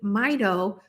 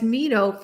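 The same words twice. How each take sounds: First: It begins like the start of 'mitochondria'. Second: It begins unlike the start of 'mitochondria'. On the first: The speaker calls it right. "It's Mito for mitochondria" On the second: The speaker calls it wrong. "I have been mispronouncing mito as mito"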